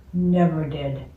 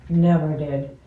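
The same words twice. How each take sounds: The two takes are said the same way.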